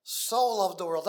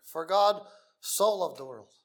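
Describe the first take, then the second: First: So leaned on, slow and weighty; slow, emphatic So at the front; stress on so. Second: Said in the usual way. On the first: Shown as a demonstration. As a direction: make So the heaviest word. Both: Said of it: "That's such a little word".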